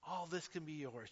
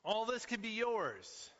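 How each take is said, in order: First: Said in the usual way. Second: High, slow grand offer; grand tempter. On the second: Pretend. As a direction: dangle the prize like a showman. Satan's temptation, salesman style.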